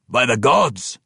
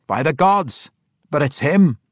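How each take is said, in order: First: By the gods as a crowd's shout; shouted together. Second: By the gods said sure and firm, falling; complete confidence. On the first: Dwarves all shouting together, joyful. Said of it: "all shouted together". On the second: Parson Glaive recognizing Bruner, confident. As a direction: declare By the gods with certainty. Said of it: "said with complete confidence". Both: Acted.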